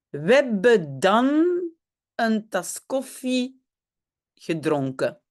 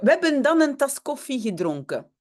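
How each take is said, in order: First: The sentence is spoken slowly. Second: The sentence is spoken at normal speed.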